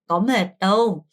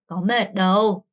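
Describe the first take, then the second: Both takes have the same delivery.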